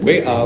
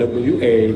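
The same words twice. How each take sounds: First: The letters get their Indonesian names. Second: The letters get their English names. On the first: The speaker calls it right. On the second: The speaker calls it wrong.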